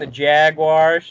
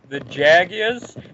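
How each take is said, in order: First: Jaguars is said with an American pronunciation. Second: Jaguars is said with a British pronunciation. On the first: It corrects to the American way. "Don't you mean the Jaguars?" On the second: It echoes how the British say it. "the Americans will be like"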